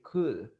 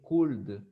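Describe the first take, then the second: First: The L is silent in the word. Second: The L sound is pronounced in the word. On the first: The speaker calls it right. "You only say could" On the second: The speaker calls it wrong. "You don't pronounce the L. You don't say could"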